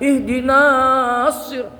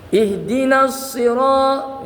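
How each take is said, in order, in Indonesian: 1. Vokal sebelum s panjang. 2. Vokal sebelum s pendek. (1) "Jangan ihdinas sirat kan panjang katanya" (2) "Dipanjangnya dibuang"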